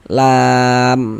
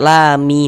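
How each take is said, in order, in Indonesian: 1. Kata ini berhenti pada m tertutup di akhir. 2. Huruf m di akhir diikuti oleh vokal. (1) "hurufnya kita sukunkan. Sehingga kita baca lam seperti itu" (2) "Jangan dibaca lami baru berhenti, jangan salah"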